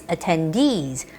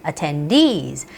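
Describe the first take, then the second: First: The stress falls on the last syllable. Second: The stress falls on the last syllable.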